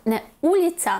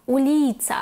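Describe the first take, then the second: First: УЛІця, first syllable punched higher; wrong first-syllable stress. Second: УЛІця, middle syllable drawn out; penultimate stress. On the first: Teacher showing learners the tempting mistake, wrongly stressed. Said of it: "як ви нам хотіли сказати". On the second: Teacher correcting the learners' habit, stress on second-last syllable. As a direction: lean long on ЛІ in "уліця". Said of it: "падатиме на другий склад з кінця". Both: Shown as a demonstration.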